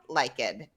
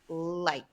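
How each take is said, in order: First: The ending is an extra id syllable. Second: The ending is a plain t sound. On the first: The speaker calls it wrong. "not like it" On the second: The speaker calls it right. "So it should sound like light"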